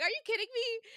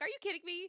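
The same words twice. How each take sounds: First: High, loud disbelieving yell; loud outburst. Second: High exasperated outburst at a book; mock outburst. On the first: Retold or imitated. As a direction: shout your disbelief at the page. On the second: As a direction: blurt it out in disbelief. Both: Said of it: "Like, out loud".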